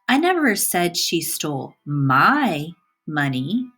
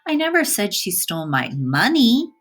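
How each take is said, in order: First: The word my carries the stress. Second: The word money carries the stress. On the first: Someone else's money was stolen. "the emphasis is on my" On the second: Something other than money was stolen. "by emphasizing the word money"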